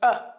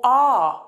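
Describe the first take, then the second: First: The word is reduced to a weak schwa. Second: The word is said in its full form.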